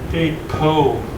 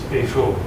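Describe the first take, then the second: First: The middle consonant is a p sound. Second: The middle consonant is an f sound. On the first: The speaker calls it wrong. "it's not Eipo David" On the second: The speaker calls it right. "since there's no dot, ... it's Eifo David"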